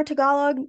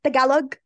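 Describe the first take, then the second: First: Tagalog said the English way, flat vowels; whitewashed pronunciation. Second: Tagalog said ta-GA-log, stress on the middle; corrected pronunciation. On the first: Real, not acted. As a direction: Tagalog with anglicized stress on first syllable. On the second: Shown as a demonstration. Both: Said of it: "I said that so whitewashed".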